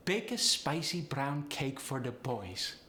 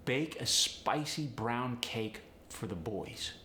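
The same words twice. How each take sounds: First: Slow, higher Polish accent. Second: Said in the usual way. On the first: Shown as a demonstration. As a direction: Polish accent, diphthongs lifting upward. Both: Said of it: "upward inflection naturally".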